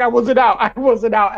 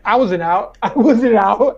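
First: Insistent denial. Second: Dazed denial. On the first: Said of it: "He's like". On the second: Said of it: "was like". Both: Retold or imitated.

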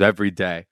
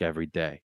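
First: "Every day." said firmly, with full volume on both words; firm repeat. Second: Quietly said, the voice drops low; a longing admission, barely above a murmur; soft wistful confession. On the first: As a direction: repeat it to insist it's true. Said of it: "This is real". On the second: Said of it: "He's like". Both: Retold or imitated.

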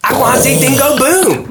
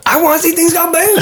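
First: Put-on high babyish whine; whiny man-child. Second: Put-on higher, faster babyish whine; whiny man-child. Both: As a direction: whine it like a big baby. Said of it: "That's how he talks".

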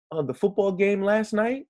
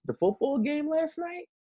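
First: "last night" lifted high, ending on a rising question tune; upward inquisitive tone. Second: "last night" pitched high with a curious upward lift; rising inquisitive tone. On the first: Host demonstrating to co-host, rising inquisitive tone on "night". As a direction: say it like a curious question, pitch climbing. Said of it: "you put that upward inquisitive tone on it". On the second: Host recapping the demo, high questioning lift on "last". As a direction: ask it as if a question mark ends it. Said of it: "that upward inquisitive tone". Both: Shown as a demonstration.

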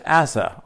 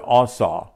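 First: Asa said AY-suh or ASS-uh, English-style; anglicized Asa with a flat English first vowel; English pronunciation of Asa. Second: Asa said AH-SAH, open vowels; Hebrew-style Asa with two open "ah" sounds; Hebrew pronunciation of Asa. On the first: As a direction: say Asa the English way, short unstressed ending. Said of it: "or pronounced in the Hebrew". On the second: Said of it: "pronounced in the Hebrew Asa". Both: Shown as a demonstration.

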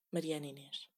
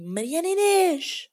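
First: Much softer, under-the-breath repeat of the name; muttered name, almost voiceless; resigned mutter. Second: Higher, slow, drawn-out yell of a daughter's full name; mock mother's shout from afar; mom yelling name. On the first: Real, not acted. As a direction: sigh the name to yourself, defeated. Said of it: "acabei de dizer o meu segundo nome". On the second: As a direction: call her out like an angry mother from the next room. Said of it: "a minha mãe a gritar por mim".

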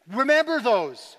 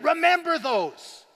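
First: Slow, firm "remember those"; measured call with weight on "remember"; firm stress on remember. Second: "remember" drawn out very slowly, higher and forceful; urgent, stretched-out "remember those", pitched up; emphatic, active REMEMBER. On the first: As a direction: say "remember" slowly and firmly, falling on "those". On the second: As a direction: lean hard and long on "remember". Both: Shown as a demonstration. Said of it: "not in a passive way".

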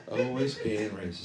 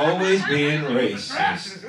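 First: Much softer, dropped-down repeat. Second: Mock-exasperated, slow sing-out accusation; drawn-out mock scolding. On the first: Pretend. Comic repeating the accusation to himself, soft aside. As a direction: toss it off quietly after the big accusation. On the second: Comic scolding a woman in the crowd, drawn-out mock outrage.

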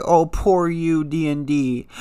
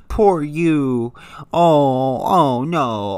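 First: Slow, drawn-out sarcastic sympathy; mock pity. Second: Sarcastic sympathy in a put-on voice; mock pity. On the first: Mocking the Game of Thrones writers, slow sarcastic pity. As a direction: pretend to feel sorry, dragging it out. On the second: Sneering at D and D in a put-on pitying voice. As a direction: fake a pitying coo. Mocking the showrunners' complaints.

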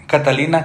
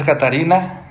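First: Catalina said with a clear l in the middle. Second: Catarina said with a tapped r in the middle. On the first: Listing old names, he corrects himself to Catalina with an l. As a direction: say Catalina, giving the l cleanly. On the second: Listing old names, he says Catarina with a tapped r. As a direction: say Catarina, tapping the r clearly. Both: Shown as a demonstration. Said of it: "Pues nombres de antes".

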